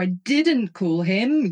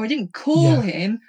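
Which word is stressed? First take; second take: I; call. First: The stress is on the word 'I'. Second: The stress is on the word 'call'. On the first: Someone else called him instead. "you called him" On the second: The speaker shouted to him instead of calling. "I shouted to him across the room because he was somewhere else"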